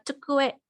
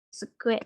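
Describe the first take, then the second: First: The word begins with a 'ch' sound. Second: The word begins with a 'ts' sound. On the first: This is an older pronunciation. "ada yang mengucapkan ini cu, bukan se" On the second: This is the common modern pronunciation. "untuk sekarang lebih umum digunakannya se"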